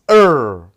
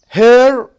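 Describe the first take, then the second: First: The word starts without an h sound. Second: The word starts with an h sound.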